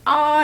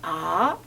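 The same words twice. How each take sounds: First: The pitch stays high and level throughout. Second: The pitch rises from middle to high. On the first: "일성은 아 이렇게 한 옥타브 높여서 해" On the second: "이성은 어떻게 하지?"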